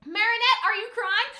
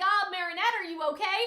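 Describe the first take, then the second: First: Loud, high, blunt call-out; just ask it straight out, no tact; imitating a blunt friend calling across the bathroom. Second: Imitating a gentler dubbed version of the friend; gentle. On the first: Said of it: "Alia is just so blunt about it". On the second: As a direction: ask with polite concern. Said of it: "I'm sure it won't be that blunt".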